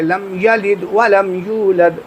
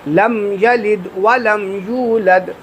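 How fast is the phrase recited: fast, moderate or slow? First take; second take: moderate; slow. First: It is recited a little faster, still clearly. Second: It is recited slowly and calmly. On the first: "थोड़ा सा और तेज़ अगर पढ़ना है" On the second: "आराम आराम से"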